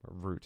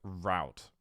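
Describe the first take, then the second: First: It is said with a British pronunciation. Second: It is said with an American pronunciation.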